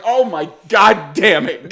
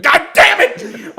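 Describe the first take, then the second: First: Slow, drawn-out groan of dismay; mock exasperation at usual volume; exasperated. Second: High, drawn-out cry of frustration; mad. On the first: Son hearing dad cursing below, exasperated. God damn it. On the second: Retold or imitated. Son hearing dad cursing below, mad outburst. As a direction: let the annoyance burst upward. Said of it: "I'm so mad".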